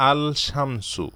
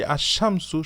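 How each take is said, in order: First: "আল শামসু" with a separate l before sh; wrongly sounded l. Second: "আশ-শামসু" with no l and a doubled sh; silent article l. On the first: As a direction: keep the l apart in "আল শামসু", as a wrong example. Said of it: "আমরা বলি না যে". ("আল শামসু", লাম উচ্চারণ করে ভুল রূপ) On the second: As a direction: merge the article into a long sh in "আশ-শামসু". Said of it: "আমরা বলি আশ-শামসু". ("আশ-শামসু", লাম সাইলেন্ট রেখে) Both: Shown as a demonstration.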